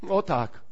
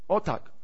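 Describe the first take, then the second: The two takes are said the same way.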